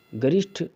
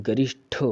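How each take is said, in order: First: गरिष्ठ ending in an unaspirated ṭ; wrong hard ṭa. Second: गरिष्ठ ending in a breath-puffed ṭh; aspirated ṭha. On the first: Teacher showing students the error, गरिष्ठ with unaspirated ṭ. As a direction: say गरिष्ठ with no puff on the last consonant. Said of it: "टा नहीं होता है". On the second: Teacher modelling the word for students, गरिष्ठ with aspirated ṭh. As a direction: release the last sound of गरिष्ठ as ṭha. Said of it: "ठा होता है". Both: Shown as a demonstration.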